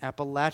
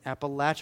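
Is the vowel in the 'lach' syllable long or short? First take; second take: short; short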